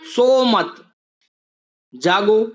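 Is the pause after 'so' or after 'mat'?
after mat. The pause comes after the word mat. Don't sleep, stay awake. "यानी कि तुम्हें सोना नहीं है, तुम्हें जागना है"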